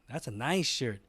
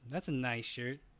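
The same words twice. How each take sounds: First: It is said in a warm, admiring tone. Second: It is said in a mocking, sarcastic tone. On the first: The speaker likes the shirt and wants one. "Or they could have meant, "Oh no, that's ooh" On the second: The speaker dislikes the shirt. "could be construed as"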